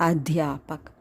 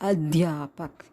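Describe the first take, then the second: The two takes are said the same way.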